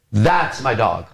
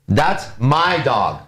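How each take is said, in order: First: "That's" leaned on, "my dog" dropping away; stress on THAT'S. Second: Slow, with "my" stretched out long; stress on MY. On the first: Teacher running through three different ways, stress on "That's". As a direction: put the weight on "That's". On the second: Teacher running through three different ways, stress on "my". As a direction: lean on "my" and draw it out. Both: Shown as a demonstration. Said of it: "I just took my now and emphasized it".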